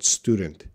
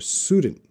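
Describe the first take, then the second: First: The T sound in the middle is clearly pronounced. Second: The T sound in the middle is dropped. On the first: The speaker calls it right. "That T is very important" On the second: The speaker calls it wrong. "say student without T sound"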